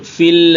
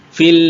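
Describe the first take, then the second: Both takes have the same delivery.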